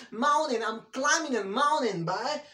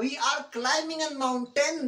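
First: Mountain as mounin, T dropped; British pronunciation. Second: Mountain with a clear T; wrong pronunciation. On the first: Teacher showing the right way, mountain without the T. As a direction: mountain with a double N. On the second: Teacher showing the wrong way, mountain with its T. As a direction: demo mountain, T sounded. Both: Shown as a demonstration. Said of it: "that's wrong".

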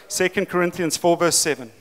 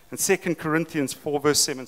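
First: Clearer repeat. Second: Said in the usual way. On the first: Real, not acted. Preacher repeating the verse for listeners who missed it, clearly. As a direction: restate the reference firmly, a little raised. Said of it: "Am I speaking fast in my South African accent?". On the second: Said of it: "Am I speaking fast".

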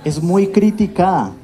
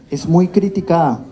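The two takes are said the same way.

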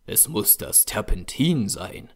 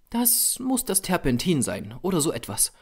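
First: Understated fury, kept inward; a touch of anger in the narrator's own voice; furious thought. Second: Higher female character voice, giving in; conceding. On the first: Painter fuming to himself over the turpentine, understated anger. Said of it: "dachte ich wütend". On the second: Model giving in to the painter, higher-voiced concession. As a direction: admit it in the model's raised pitch. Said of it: "gab sie zu". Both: A narrator's reading.

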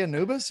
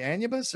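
First: "Anubis" with a long, stressed NOO in second place; Anubis as uh-NOO-bis. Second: "Anubis" starting on a stressed AN, then a quick yuh; Anubis as AN-yuh-bis. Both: Shown as a demonstration. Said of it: "I said it different ways".

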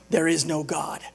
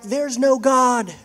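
First: Lower-pitched, matter-of-fact gloat; smug retort. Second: Mild mock yell, slow and higher; yelling back. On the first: Acted. Atheist who bought the groceries, smug low retort. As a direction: drop the pitch to settle the point. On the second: Atheist answering the lady next door, mock yelling back. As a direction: call it back slowly, drawing out NO. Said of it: "the atheist yells back".

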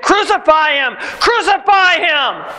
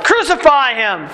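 First: Higher, rising chant, slowing on the repeat; slow, high crowd chant of crucify. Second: Mild raised cry of the crowd; a touch of mob shouting. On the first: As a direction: chant it like a mob demanding death. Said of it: "The crowd took up the chant". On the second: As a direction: call it out as an angry mob, lightly. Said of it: "The crowd shouted". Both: A narrator's reading.

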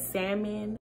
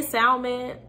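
First: Salmon with a silent L, "sam-un"; salmon, L dropped. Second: Salmon with the L pronounced; L sounded. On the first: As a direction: say salmon the correct way, no L sound. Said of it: "I know the correct term, like, the correct way is salmon". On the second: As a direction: say salmon as "sal-mon", sounding the L. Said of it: "I say salmon because, um, there's an L in it". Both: Shown as a demonstration.

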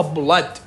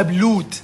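First: بلاد said with an open a, blad; correct pronunciation. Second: بلود said with a long oo, as students wrongly say it; wrong pronunciation. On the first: Teacher correcting students, saying بلاد the right way. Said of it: "لا قل له بلاد". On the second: Teacher showing students the wrong way to say بلود. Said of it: "مرات اكو طلاب يلفظوها خطأ". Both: Shown as a demonstration.

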